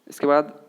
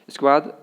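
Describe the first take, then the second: The two takes are said the same way.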